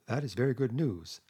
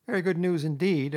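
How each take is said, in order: First: Measured, understated gravity; grave. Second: High, louder doubtful echo; dubious. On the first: Mole hearing of Toad's promise, gravely. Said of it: "said the mole gravely". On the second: Rat doubting Toad's promise, dubious. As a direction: agree while clearly doubting it. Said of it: "observed the rat dubiously". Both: A narrator's reading.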